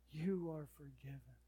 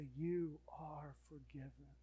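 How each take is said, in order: First: Said in the usual way. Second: Slow, whispered forgiveness; whispered assurance of forgiveness; tender whisper. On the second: Acted. God's tender words.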